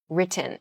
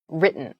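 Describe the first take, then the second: First: The middle T is a crisp, clear T. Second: The middle T is soft, almost like D. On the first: The speaker calls it wrong. "We don't say written" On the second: The speaker calls it right. "in pronunciation we tend to say written"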